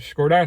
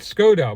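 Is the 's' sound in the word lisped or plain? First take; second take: lisped; plain. First: The first sound is a lisped 's'. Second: The first sound is a plain 's'. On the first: This is how a radio advert says it. "the lady on the radio advert keeps going Skoda" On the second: This is the speaker's usual way of saying it. "I think I've always said Skoda"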